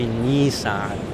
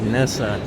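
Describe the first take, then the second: First: It is said the Chinese way. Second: It is said the South African way. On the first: "how the Chinese pronounce it and they say Nissan" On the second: "for us, we say Nissan"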